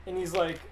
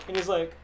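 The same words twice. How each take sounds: The two takes are said the same way.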